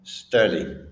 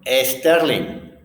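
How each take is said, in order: First: The name starts directly with the s sound. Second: An extra e vowel comes before the s. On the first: The speaker calls it right. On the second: The speaker calls it wrong. "Y él dijo"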